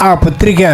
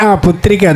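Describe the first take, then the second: Both takes have the same delivery.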